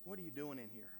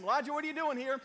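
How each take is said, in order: First: Soft, low, gentle asking; still small voice. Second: Loud, high, pressing question; God demanding. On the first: God retrying gently with Elijah, soft and low. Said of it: "speaking a still small voice". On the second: God confronting hiding Elijah, loud and pressing. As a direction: call him out firmly. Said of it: "God asked him". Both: Acted.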